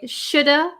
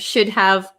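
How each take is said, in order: First: The words are reduced into one word, 'shoulda'. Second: Both words are said fully, 'should have'. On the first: "we often say shoulda" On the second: "instead of should have"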